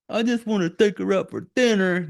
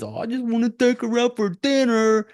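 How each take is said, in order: First: Raised, sneering repeat of the line; sarcastic mimicry of a loser; mocking Rick again. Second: High mocking whiny voice; mocking the lovesick ex-boyfriend; mocking Rick. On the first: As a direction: parrot him back with contempt, pitched up. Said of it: "You fucking loser". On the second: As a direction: mimic him as a sappy fool, pitched way up. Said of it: "the Tanya girl that he says".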